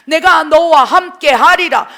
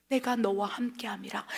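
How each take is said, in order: First: 내가 너와 함께 하리라 shouted louder, slow; slow booming proclamation; God's booming voice. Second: Soft whisper of 내가 너와 함께함이라; hushed, intimate whisper; whispered promise. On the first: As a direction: thunder the promise from the pulpit. Quoting God's promise, shouted. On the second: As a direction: breathe God's promise like a secret. Quoting God's promise, whispered. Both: Acted.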